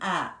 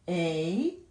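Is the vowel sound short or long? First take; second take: short; long. First: A short vowel, as in apple. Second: A long vowel, like the letter's name. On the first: "short vowel sound" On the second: "long vowel 사운드로 날 때는 ... 각각의 글자들의 이름대로 발음이 됩니다"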